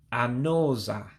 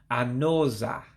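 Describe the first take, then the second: First: The u sound before 'za' is dropped. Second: The same.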